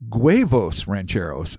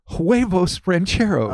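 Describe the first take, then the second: First: The first word starts with a hard g sound. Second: The first word starts with a soft w-like sound.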